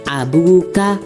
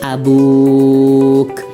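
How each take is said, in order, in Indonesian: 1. Kata dibaca terus, berakhir pada vokal. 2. Kata berhenti, berakhir pada konsonan k.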